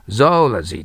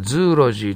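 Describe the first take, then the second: First: It begins with 'zo' before 'ology'. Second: It begins with 'zoo' and runs into 'logy'. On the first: The speaker calls it right. "発音記号はゾーラジーとなります" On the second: The speaker calls it wrong. "ズーロジーとなりそうですけど"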